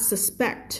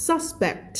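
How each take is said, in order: First: "suspect" stressed on the second syllable, sus-PEKT; light "sus", land on "PECT" in "suspect"; verb stress. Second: "suspect" stressed on the first syllable, SUS-pekt, high then falling; noun stress. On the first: Teacher showing the verb form, "suspect" as sus-PEKT. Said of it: "ถ้าเป็น verb อ่านว่า suspect". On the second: Teacher showing the noun form, "suspect" as SUS-pekt. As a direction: hit the SUS of "suspect" high, let "pect" drop. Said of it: "ถ้าเป็น noun จะอ่านว่า". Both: Shown as a demonstration.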